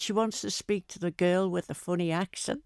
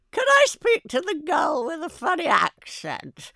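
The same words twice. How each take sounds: First: Said in the usual way. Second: High, loud, prim lady voice, far above her own; posh London caller. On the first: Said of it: "and I said". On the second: Retold or imitated. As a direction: put on a snooty London woman asking for the girl. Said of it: "this woman phoned up one day".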